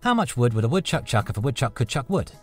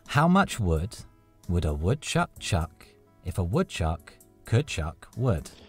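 First: It is said at a quick pace. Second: It is said at a slower pace.

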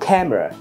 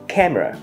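No difference in how they are said.

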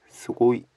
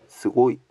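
First: The final vowel is short. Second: The same.

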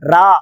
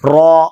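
First: The r syllable is said light and plain. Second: The r syllable is said heavy with rounded lips. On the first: The speaker calls it wrong. "ரா என்று சொல்லக்கூடாது" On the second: The speaker calls it right. "ஓரளவுக்கு உதடுகளை வாயை வட்டமாக வைத்துக் கொண்டால் தானாக அது வல்லினமாக மாறிவிடும்"

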